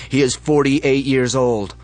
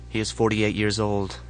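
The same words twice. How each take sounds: First: Loud, slow shouted announcement; leader's yell. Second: Said in the usual way. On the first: Acted. Leader calls out to the crowd, slow loud yell. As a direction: call it out over the basement crowd. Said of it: "The leaders yell". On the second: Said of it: "narration after the chant".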